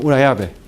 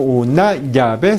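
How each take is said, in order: First: The ll is a smooth fricative sound. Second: The ll is a stopped affricate sound. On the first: The speaker calls it right. "la lengua nunca debe tocar el techo del paladar" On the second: The speaker calls it wrong. "No es como una llave"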